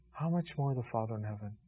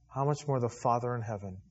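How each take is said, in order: First: Softer echo of the question; quieter repeat. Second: Said in the usual way. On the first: Shown as a demonstration. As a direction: let it sink in, quieter.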